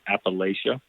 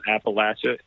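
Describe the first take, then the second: First: It is said the way outsiders say it. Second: It is said the way local people say it. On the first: The speaker is not from the region. The speaker calls it wrong. "not Appalachia ... that's how we know you're not from here" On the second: The speaker is from the region. The speaker calls it right. "It's called Appalachia"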